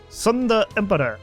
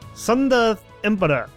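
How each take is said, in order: First: The first word begins with an s sound. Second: The same.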